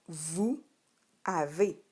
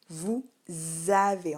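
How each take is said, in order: First: The two words are said without a linking z. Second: A z sound links the two words. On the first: This is how it is written. "tu l'écris de cette manière" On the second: This is how it is spoken. "On entend un Z entre les deux, c'est la liaison"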